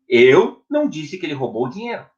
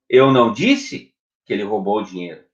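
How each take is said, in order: First: The stress falls on the word eu. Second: The stress falls on the word disse. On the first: Someone else said it. "Então, quem falou?" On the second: Something else was said. "O que você disse?"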